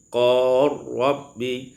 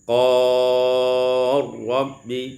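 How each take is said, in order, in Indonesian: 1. Vokal ditahan sebentar. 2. Vokal ditahan sedang.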